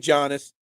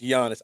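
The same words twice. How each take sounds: First: The name begins with a hard G sound. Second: The name begins without a G sound. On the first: The speaker calls it wrong. "I say Giannis. Don't correct my pronunciation. I purposely mess it up" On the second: The speaker calls it right. "The G is silent"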